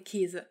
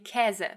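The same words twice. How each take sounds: First: The vowel is a closed, long ay sound. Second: The vowel is an open, long eh sound. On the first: This is a regional pronunciation. "there are regions in Germany where you would be more inclined to say" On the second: This is the standard pronunciation. "that's the way that Hochdeutsch would have you pronounce it"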